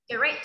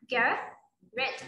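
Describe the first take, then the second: First: "Great" said quickly, final t only lightly touched. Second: "great" drawn out very slowly with a clear final t; final t sounded. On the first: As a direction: skim "Great", barely tapping the t. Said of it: "Mình đọc lướt thôi, rất là nhanh". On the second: Teacher to child: "great" spelled out very slowly, final t sounded. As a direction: stretch "great" out slowly and land the t at the end. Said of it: "Âm đờ cuối nhưng mà mình đọc". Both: Shown as a demonstration.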